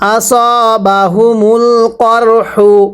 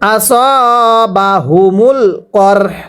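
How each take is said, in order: First: The phrase ends with a u vowel after h. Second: The phrase ends on a bare h sound. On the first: The reader continues without stopping. "হা পেশ হু" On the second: The reader stops at this word. "হায়ের উপর পেশকে বাদ দিয়ে পড়ব"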